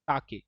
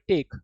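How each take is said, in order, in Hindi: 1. यह दो अक्षरों में बोला जाता है, ta-ke। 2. यह एक अक्षर में बोला जाता है, tek। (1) "टेक नहीं होगा ये, ताके" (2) "अगर जो आपको इंग्लिश में कहीं लिखा मिले आप इसे पढ़ोगे टेक"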